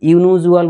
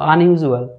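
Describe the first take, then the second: First: The word begins with a 'yoo' sound. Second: The word begins with an 'un' sound. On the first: The speaker calls it wrong. "এখানে কিন্তু ইউনিউজুয়াল বলছে না" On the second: The speaker calls it right. "A pronunciation হচ্ছে আন"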